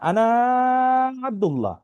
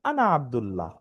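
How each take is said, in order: First: The last vowel of 'ana' is drawn out long. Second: The last vowel of 'ana' is kept short. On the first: The speaker calls it wrong. "কেউ কিন্তু বলে না আনা আব্দুল্লাহ। ঠিক আছে, আনা টান দিয়ে কেউ বলে না" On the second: The speaker calls it right. "সবাই বলে আনা আব্দুল্লাহ"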